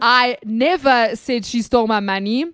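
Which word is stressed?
never. The stress is on "never".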